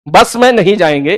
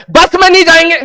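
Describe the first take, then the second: First: Said in the usual way. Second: Pitched way up, refusing the bus; a high, pushy no to the bus; high insistent demand. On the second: Retold or imitated. Demanding a car, not bus.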